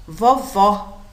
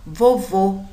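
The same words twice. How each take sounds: First: "vovó" with an open, stressed final ó; open final vowel. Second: "Vovô" with a closed, stressed final ô; closed final vowel. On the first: Teacher shows pupils the acute accent, "vovó" with open ó. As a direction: say "vovó" ending in a wide-open "aw" sound. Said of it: "o som é aberto". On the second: Teacher shows pupils the circumflex, "Vovô" with closed ô. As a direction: say "Vovô" ending in a rounded, closed "oh" sound. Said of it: "o som é mais fechado". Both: Shown as a demonstration.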